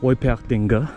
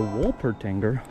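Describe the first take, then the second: First: The name is said with German pronunciation. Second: The name is said with English pronunciation.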